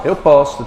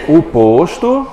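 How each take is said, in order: First: Posto with open o, as "PAWS-too". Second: Posto with closed o, as "POHS-too". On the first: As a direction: say "posto" with a wide, open first o. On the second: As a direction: say "posto" with a tight, closed first o. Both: Shown as a demonstration. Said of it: "o som delas é o quê? Totalmente diferente".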